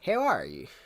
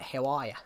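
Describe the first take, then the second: First: It is said in an American accent. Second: It is said in an Australian accent. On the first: "Say how are you in an American accent" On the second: "That's Australian"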